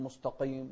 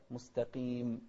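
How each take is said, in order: First: مستقيم with a dark q muddying the vowels; over-heavy qaf. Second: مستقيم with a lighter q and clean long i; lightened qaf. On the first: Retold or imitated. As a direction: overdo the heaviness in مستقيم. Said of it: "ما نقول". (مبالغة في تفخيم قاف مستقيم) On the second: Shown as a demonstration. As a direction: keep مستقيم thin and clear. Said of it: "أقل تفخيما". (مستقيم بقاف مخففة)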